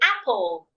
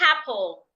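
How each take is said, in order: First: The word starts directly with the vowel. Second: The word starts with an added h sound. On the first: The speaker calls it right. "Simply say apple" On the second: The speaker calls it wrong. "Do not add the H sound to words that start with a vowel. That is wrong. So do not say apple"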